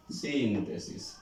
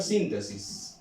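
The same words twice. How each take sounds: First: "Síntesis" slow and soft, long stressed "Sín" falling away; stress on first syllable. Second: Said in the usual way. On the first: Shown as a demonstration. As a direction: stretch the "Sín" of "Síntesis", let "tesis" drop. ("Síntesis" lento y suave, alargando la sílaba tónica "Sín") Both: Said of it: "Suena fuerte aquí, acento".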